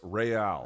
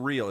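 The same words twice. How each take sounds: First: It is said the Spanish way, re-AL. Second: It sounds like the English word real. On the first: The speaker calls it right. "It's Real" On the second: The speaker calls it wrong. "It's not real"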